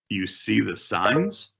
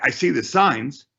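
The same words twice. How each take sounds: First: Quiet, slow, rising on signs; soft rising mirror. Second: Said in the usual way. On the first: Shown as a demonstration. Agent mirroring the seller, slow soft question. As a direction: echo it back slowly and softly. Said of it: "upward inflection at the very last word". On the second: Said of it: "repeat back with an upward inflection".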